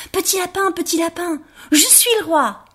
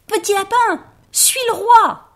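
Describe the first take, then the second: First: High, proud little rabbit calling out to the others. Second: Very high, loud triumphant shout; shouting very loudly. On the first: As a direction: announce it to the whole clearing. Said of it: "et il cria". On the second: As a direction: yell it so every rabbit hears. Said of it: "cria très, très fort". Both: Acted.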